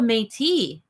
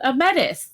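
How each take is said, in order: First: Métis is pronounced with the standard pronunciation. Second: Métis is pronounced the way the American friends said it. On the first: The speaker calls it right. "oh, a Métis" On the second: The speaker calls it wrong. "they kept saying Metis"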